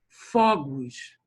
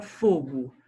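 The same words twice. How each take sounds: First: FOGOS with an open first O, as "FÓ-gos". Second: FOGO with a closed first O, as "FÔ-go". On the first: Teacher contrasting the plural for the class, FOGOS with open O. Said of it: "a diferença do som de uma sílaba". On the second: Teacher showing the singular's sound, FOGO with closed O. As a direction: say FOGO with a rounded, closed stressed O. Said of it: "o som é fechado". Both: Shown as a demonstration.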